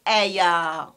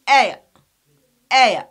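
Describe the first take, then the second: First: "aya" with a drawn-out, full "ah" ending; wrong final schwa. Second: "aya" loud, with a short weak schwa ending; correct final schwa. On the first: Teacher warning about the final schwa, "aya" wrongly drawn out. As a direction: overdo the end of "aya" into a long "yaa". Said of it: "We don't pronounce it like". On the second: Teacher correcting after "no", "aya" with short schwa. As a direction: punch the AY in "aya", barely touch the end. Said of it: "We don't pronounce it like aya". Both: Shown as a demonstration.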